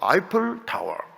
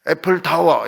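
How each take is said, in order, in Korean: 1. 첫 단어는 'ai' 모음으로 시작합니다. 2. 첫 단어는 'ae' 모음으로 시작합니다. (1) "우리는 항상 발음을 정확하게 해야 됩니다" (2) "애플 타워 이렇게 하지 말고"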